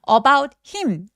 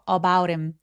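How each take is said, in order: First: The h in him is fully and carefully pronounced. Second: The h in him is weakened and softly linked. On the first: The speaker calls it wrong. "이렇게 열심히 발음하지 않고요" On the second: The speaker calls it right. "대명사들의 H 소리를 약화시켜서"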